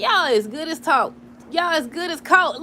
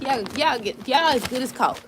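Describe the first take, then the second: First: Loud and slow with a laugh in it; emphatic. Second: Tripping over the words; stammering, restarting the phrase; stuttering. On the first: Shown as a demonstration. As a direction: lay it down slowly and firmly. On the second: Real, not acted. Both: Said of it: "I'm stuttering and stuff".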